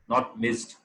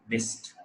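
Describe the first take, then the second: First: The ending is sounded as a separate 'ed' syllable. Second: The ending is a short 't' sound, no extra syllable. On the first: The speaker calls it wrong. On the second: The speaker calls it right.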